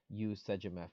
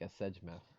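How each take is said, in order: First: The first word starts with a full 'y' glide. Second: The first word is only a short quick vowel. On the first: The speaker calls it wrong. "instead of" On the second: The speaker calls it right. "would probably be like a sejmef, just a, a quick vowel"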